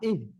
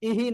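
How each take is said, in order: First: The syllable ends cleanly on the 'h'. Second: An extra 'i' vowel follows the 'h'. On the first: The speaker calls it right. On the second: The speaker calls it wrong. "ইহি না"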